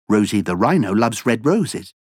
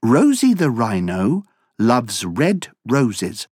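First: It is spoken at a fast pace. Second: It is spoken at a normal pace.

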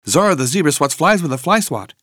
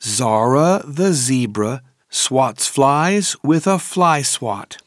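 First: The sentence is said at a very fast pace. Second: The sentence is said at a moderate pace.

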